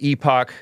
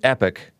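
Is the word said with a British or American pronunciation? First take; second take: British; American. First: It is said the British way. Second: It is said the American way, like epic.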